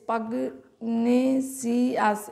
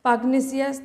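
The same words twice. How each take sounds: First: পাগনেসিয়াস said slowly, syllable by syllable; broken into syllables. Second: Said in the usual way. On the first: Shown as a demonstration. Teacher helping students remember the spelling, পাগনেসিয়াস in slow separated syllables. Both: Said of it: "এইভাবে একটু ভেঙে ভেঙে".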